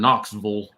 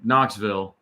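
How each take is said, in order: First: It is said in the local regional pronunciation. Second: It is said in the speaker's usual pronunciation.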